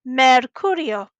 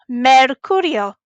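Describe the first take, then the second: Both takes have the same delivery.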